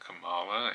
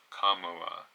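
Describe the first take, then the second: First: The first syllable does not sound like 'comma'. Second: The first syllable sounds like the word 'comma'. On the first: The speaker calls it wrong. "So it's not Kamala" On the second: The speaker calls it right. "comma, like the punctuation, um, comma la"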